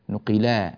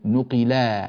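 First: The final long vowel is pressed and lengthened. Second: The final long vowel is pressed and lengthened.

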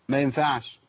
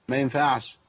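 No difference in how they are said.

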